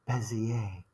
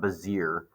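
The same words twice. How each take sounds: First: The word is said with a French pronunciation. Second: The word is said with an English pronunciation. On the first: The speaker calls it right. "it's uh, French or Belgium, so it's a Bezier curve" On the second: The speaker calls it wrong. "that's not Bezier"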